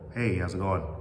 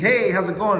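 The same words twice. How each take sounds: First: It is said calmly, with less energy. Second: It is said with lots of energy.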